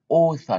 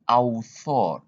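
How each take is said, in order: First: The first vowel is said as an O sound. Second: The first vowel is not said as O. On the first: The speaker calls it right. "you read O" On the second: The speaker calls it wrong. "not author"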